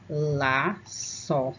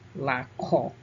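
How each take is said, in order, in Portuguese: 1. A consoante do meio tem som de s suave. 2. A consoante do meio tem som de k forte. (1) "quando a gente coloca a cedilha ... o C passa a ter som de S" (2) "laço sem a cedilha, ficaria laco"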